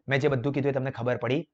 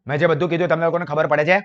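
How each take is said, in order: First: Said in the usual way. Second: Louder and fast, a pushy rough tone; rude tone. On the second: Shown as a demonstration. Teacher demos a bad phone tone to students, loud and fast. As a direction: fire it off loud and impatient at the listener. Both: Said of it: "देखो दोनों के tone में क्या difference है".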